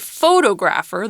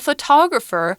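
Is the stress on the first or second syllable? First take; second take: first; second. First: The stress is on the first syllable. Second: The stress is on the second syllable. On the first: The speaker calls it wrong. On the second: The speaker calls it right.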